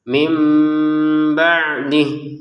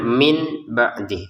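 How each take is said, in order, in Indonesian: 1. Bunyi sengau itu m yang samar. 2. Bunyi sengau itu n yang jelas. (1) "nun sukunnya sebagai huruf mim... disertai dengan samar" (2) "Kalau kita bacanya dengan jelas"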